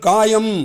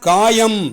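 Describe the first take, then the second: No difference in how they are said.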